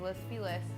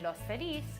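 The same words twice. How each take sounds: First: The name is said with an English pronunciation. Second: The name is said with a Spanish pronunciation. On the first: This is how most locals say it. "just say Los Feliz" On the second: This is how someone from the border says it. "because I grew up on the border and that's just how I would say it"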